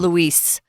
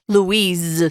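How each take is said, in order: First: The name ends with a hissing S sound. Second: The name ends with a buzzing Z sound. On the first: The speaker calls it wrong. "It's not" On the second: The speaker calls it right. "We pronounce it with a Z sound"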